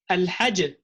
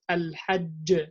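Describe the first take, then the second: First: The doubled consonant is cut short to a single one. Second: The doubled consonant is held, then released with a bounce. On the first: The speaker calls it wrong. "you don't eliminate the shadda" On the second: The speaker calls it right. "you will make the qalqala on the next part of the sound"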